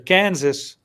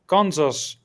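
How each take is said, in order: First: It is pronounced the American way. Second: It is pronounced the Dutch way.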